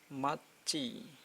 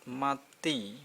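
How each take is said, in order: First: The last syllable is pronounced with a CH sound. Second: The last syllable is pronounced with a T sound. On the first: "Tapi ini jadi ci" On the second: "kalau dibaca biasa kan mat, mati"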